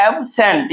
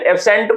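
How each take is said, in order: First: एब्सेंट in two separated parts, ab and sent; split into syllables. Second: Said in the usual way. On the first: Shown as a demonstration. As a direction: break एब्सेंट after the first syllable. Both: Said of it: "दो part में तोड़ते हैं".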